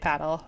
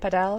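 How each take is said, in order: First: The word has an English pronunciation. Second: The word has a Spanish pronunciation. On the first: It suits an English-speaking place. "But here, I'll say paddle" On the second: It suits a Spanish-speaking place. "I'd have to say Padel because it's like such a Spanish-speaking place"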